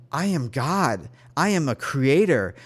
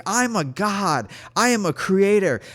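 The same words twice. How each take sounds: First: Retold declaration, measured and firm; steady, emphatic self-affirmation; repeated affirmation. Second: Raised, high, emphatic declaration; high, insistent half-scream; retold screaming. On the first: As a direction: declare it with growing conviction. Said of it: "I kept repeating that over and over". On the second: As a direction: proclaim it at a mock scream. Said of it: "I was just screaming".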